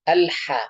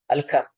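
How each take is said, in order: First: The consonant after al is a throaty h. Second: The consonant after al is a k sound. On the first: The speaker calls it right. "Ha dari tengah tenggorokan" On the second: The speaker calls it wrong. "bukan ka"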